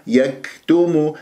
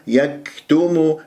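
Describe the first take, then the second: The two takes are said the same way.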